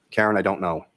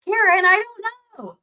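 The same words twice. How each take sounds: First: Monotone. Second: High, drawn-out slow whine; expressive imitation. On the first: Real, not acted. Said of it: "But listen to how he says it". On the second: Streamer mocks how she'd read the text, high and slow. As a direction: ham up the reply with big inflection. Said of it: "the way I would be like".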